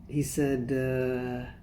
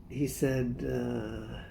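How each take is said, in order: No difference in how they are said.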